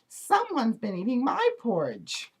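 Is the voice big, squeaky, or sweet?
squeaky. It is said in a squeaky little voice. "in his squeaky little voice"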